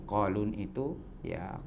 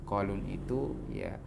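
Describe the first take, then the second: No difference in how they are said.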